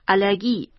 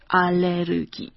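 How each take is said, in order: First: It is pronounced the German way. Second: It is pronounced the Korean way.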